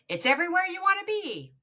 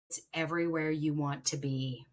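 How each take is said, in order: First: It is said in a plain, non-seductive way. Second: It is said in a sultry, seductive way.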